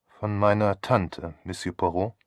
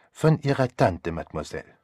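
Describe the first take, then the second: First: Put-on sceptical young lady's question; questioning Theresa. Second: Courteous, assured statement; confirming Poirot. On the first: Theresa echoes him in question. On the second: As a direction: confirm it politely with a French accent. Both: A narrator's reading.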